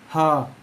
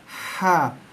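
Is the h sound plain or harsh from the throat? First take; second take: plain; harsh. First: The h is a plain, light breath. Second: The h is harsh, squeezed from mid-throat. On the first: The speaker calls it wrong. "Itu bunyi yang salah" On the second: The speaker calls it right. "Yang betul ialah ha pedas"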